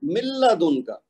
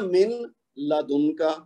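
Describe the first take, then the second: First: من لدن as مِلَّدُن, noon dropped into the lam; correct reading. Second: من لدن with the noon pronounced clearly; wrong reading. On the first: Teacher shows students the correct merged reading. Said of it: "جیسے میں نے نون کو ادا ہی نہیں کیا". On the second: Teacher shows students the incorrect way. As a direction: say من لدن keeping the noon sound. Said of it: "لیکن ہم نے ایسے نہیں پڑھنا". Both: Shown as a demonstration.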